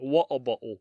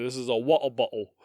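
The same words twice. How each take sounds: First: "Water bottle" with the R's taken out, English style; R dropped. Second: Mock English accent, dropped R's. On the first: Teaching cohost an English accent, no R in "Water". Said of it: "You just take the R's out". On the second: Demoing an English accent to cohost, mock English. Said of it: "my English accent". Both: Shown as a demonstration.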